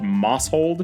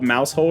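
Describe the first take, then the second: First: The first syllable sounds like 'moss'. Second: The first syllable sounds like 'mouse'. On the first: The speaker calls it wrong. "I really thought it was called Mosshold" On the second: The speaker calls it right. "I didn't realize this one was called Mousehold until I saw someone else pronounce it"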